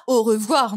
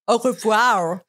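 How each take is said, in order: First: "Au revoir" said in full, rolled r and final r kept; proper Au revoir. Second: "Au revoir" with the r swallowed, like "ô vwa"; clipped Au revoir. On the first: Shown as a demonstration. Correcting herself to show the right French goodbye. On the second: Retold or imitated. Telling friends how a French goodbye came out in London. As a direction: let "Au revoir" slip out, English-style. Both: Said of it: "Pas «Au revoir», non".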